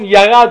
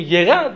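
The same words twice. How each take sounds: First: The first syllable has a full a vowel. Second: The first consonant has a reduced vowel. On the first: This is the Hebrew way of saying it. "במקום ירד" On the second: This is the Aramaic way of saying it. "אומרים ירד"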